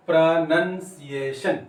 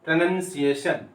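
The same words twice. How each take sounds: First: प्रोनंसिएशन slowly, syllable by syllable; slow pronunciation demo. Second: Said in the usual way. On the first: Shown as a demonstration. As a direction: stretch each syllable of प्रोनंसिएशन for learners. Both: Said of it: "आप voice देख लीजिए".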